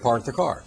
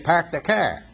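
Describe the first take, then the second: First: It is said with a standard accent, r's pronounced. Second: It is said with a Boston accent, dropping the r's. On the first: "instead of" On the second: "in Boston, where you park the car"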